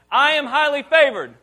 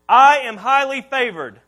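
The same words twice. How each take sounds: First: Louder-than-talk, higher, emphatic declaration; like you mean it. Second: Loud declaration, measured for repeating; first call to repeat. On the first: Preacher urges congregation to repeat with conviction, emphatic high declaration. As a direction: belt it out with full conviction. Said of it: "You didn't say it like you mean it". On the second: Preacher gives the congregation a line to repeat, loud declaration. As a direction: declare it loudly. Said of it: "I want you to repeat this with me". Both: Shown as a demonstration.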